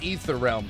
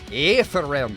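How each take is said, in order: First: The name is said with a plain pronunciation. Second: The name is said with a Scottish-style pronunciation. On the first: "you would think it's Ether Realm" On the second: "like a Scottish pronunciation"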